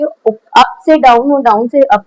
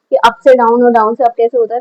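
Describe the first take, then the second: First: "up से down और down से up" drawn out slowly, in time with the stroke; slow demo phrasing. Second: Said in the usual way. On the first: Shown as a demonstration. Art teacher shows students the pencil stroke, slowly. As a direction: pace each word like the pencil moving. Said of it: "इस तरीके से चलेगी". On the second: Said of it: "मैंने आप लोगों को line सिखाई थी ना".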